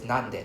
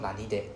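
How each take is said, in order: First: The word is said without a vowel after 'nan'. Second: The word is said with an 'ee' vowel after 'nan'. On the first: The speaker calls it right. "it's nande" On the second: The speaker calls it wrong. "not nanide"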